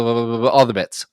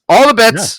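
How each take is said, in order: First: Said in the usual way. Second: Higher and louder, all the bits! bursting out; excited. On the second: Acted. Host cheering to his co-host, excited higher and louder. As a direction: throw up your arms and cry All the bits!. Rattling off podcast intro bits.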